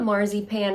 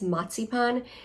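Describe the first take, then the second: First: The z is a plain z sound. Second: The z is sounded as ts. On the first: This is how many Americans say it. The speaker calls it wrong. "I think a lot of Americans say that" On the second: This is the German way to say it. The speaker calls it right. "A Z is pronounced as a T Z"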